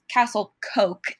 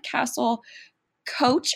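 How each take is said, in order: First: The second word ends with a 'k' sound. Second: The second word ends with a 'ch' sound. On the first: The speaker calls it right. "we're going to say it's Castle Coke now" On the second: The speaker calls it wrong. "I believe I said Castle Coach earlier"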